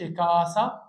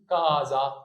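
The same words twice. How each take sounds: First: كاسا with an unvoiced S in the middle; wrong S sound. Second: كازا slowly, with voiced Z; correct Z sound. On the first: Teacher shows what not to say, كاسا with an S. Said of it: "هنا ما تقولش كاسا". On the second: Teacher gives the right reading, slow كازا with a Z. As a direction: say كازا with a buzzing Z in the middle. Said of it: "قول كازا". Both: Shown as a demonstration.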